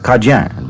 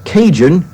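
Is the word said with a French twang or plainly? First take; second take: French twang; plainly. First: It is said with a slight French twang. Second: It is said plainly, without a French twang. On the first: "they put a little French twang in there" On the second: "is not pronounced that way by many people"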